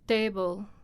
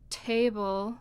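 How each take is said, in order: First: The t is said in a natural, everyday way. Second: The t is said in a careful, idealized way. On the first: This is the sound as it is actually spoken. "what you actually say" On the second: This is the sound as it is pictured mentally. "What's in your mind"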